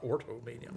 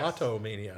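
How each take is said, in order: First: The first syllable sounds like 'or', with r. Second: The first syllable sounds like 'aw', without r. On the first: The speaker calls it wrong. "not ortomania" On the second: The speaker calls it right.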